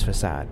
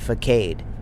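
First: The last syllable sounds like 'sahd'. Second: The last syllable rhymes with 'played'. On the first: The speaker calls it right. "The word is facade" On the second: The speaker calls it wrong. "It was the rhyming word. ... played. Facade"

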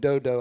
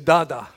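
First: The name is said with 'oh' vowels. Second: The name is said with 'ah' vowels. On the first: The speaker calls it wrong. "I used to call him Dodo" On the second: The speaker calls it right. "It was actually Dada"

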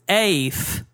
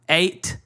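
First: Only a TH sound is heard, no T. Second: A T sound comes before the final TH. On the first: "You say you only use the TH" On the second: "You don't pronounce the T before the TH"

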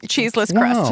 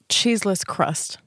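First: It is said quickly, the words run together. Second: It is said at a normal, careful pace.

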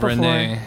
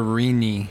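First: The name is said like 'Renay', with the accent. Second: The name is said like 'Reenie', ignoring the accent. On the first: The accent mark is respected. The speaker calls it right. "instead of Renee. Because they didn't see the accent" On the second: The speaker did not notice the accent mark. The speaker calls it wrong. "Someone once called ... My mother Renee instead"

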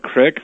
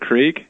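First: The vowel is short, like 'ick'. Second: The vowel is long, like 'eek'. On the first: "my dad will say things like crick" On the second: "for creek"

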